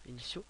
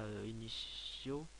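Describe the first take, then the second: First: Initiaux said carefully as i-ni-sjo; corrected pronunciation. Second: Initiaux slurred as inio, the middle sound dropped; mispronounced. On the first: Vlogger correcting himself, saying initiaux properly. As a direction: say initiaux again clearly with every sound in place. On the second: Vlogger tripping over the word initiaux before correcting it. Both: Shown as a demonstration. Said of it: "ouais c'est ça".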